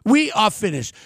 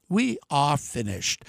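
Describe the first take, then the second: First: Said in the usual way. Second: Sinking low and soft, slow and heavy; grim drop. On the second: Real, not acted. Warning voters, voice drops low, soft and slow. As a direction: let it fall away, dead quiet and slow.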